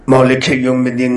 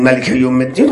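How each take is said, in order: First: مالک read with a long open "maa", maa-lek yawm ad-din; Maalik reading. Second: ملک read short as ma-lik, with no long vowel, and a rise on الدین; Malik reading. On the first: Preacher showing the worshipper's Maalik reading. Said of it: "بنده میگه". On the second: Preacher contrasting Malik with Maalik for listeners. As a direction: say ملک short and clipped, lifting at the end. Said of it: "تلفظ کردن". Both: Shown as a demonstration.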